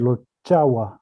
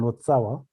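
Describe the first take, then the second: First: The middle consonant is a 'ch' sound. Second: The middle consonant is a 'ts' sound. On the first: This is the pronunciation from Indian languages. "in Sanskrit or Indian Indian languages, it was pronounced rather Lochawa" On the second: This is the pronunciation that came into Tibetan. "the pronunciation tsa came to Tibet"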